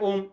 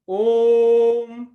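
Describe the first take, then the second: First: The vowel is held only briefly. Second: The vowel is drawn out very long. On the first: The speaker calls it wrong. "ये गलत है" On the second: The speaker calls it right. "ये प्लुत है"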